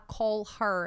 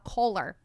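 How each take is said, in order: First: The h of 'her' is clearly pronounced. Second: The h is dropped and the words join. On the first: The speaker calls it wrong. "Eu não vou falar call her" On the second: The speaker calls it right. "eu vou falar caller, hora que eu junto"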